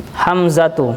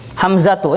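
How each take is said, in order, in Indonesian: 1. Kata ini berakhir dengan suku kata tu yang penuh. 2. Kata ini berakhir dengan suku kata tu yang penuh.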